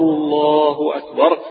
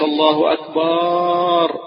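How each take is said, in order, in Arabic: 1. الحركة بعد الباء تُنطق قصيرة. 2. الحركة بعد الباء تُمدّ وتُنطق طويلة. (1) "قل الله أكبر الله أكبر، بهذا المد الطبيعي" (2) "ما تقولش الله أكبر زي ما نسمع بعض الجهل اللي يعمل، هذا خطأ"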